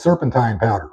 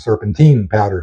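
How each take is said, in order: First: It is said with a British accent. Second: It is said with an American accent.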